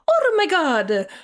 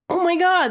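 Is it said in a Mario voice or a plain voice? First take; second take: Mario voice; plain voice. First: It is said in an imitation of Mario's voice. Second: It is said without a convincing Mario voice.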